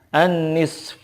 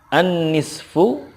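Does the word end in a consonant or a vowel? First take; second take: consonant; vowel. First: The word ends on a faint final consonant. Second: The word ends with a short final vowel. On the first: The reader stops at this word. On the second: The reading continues without stopping.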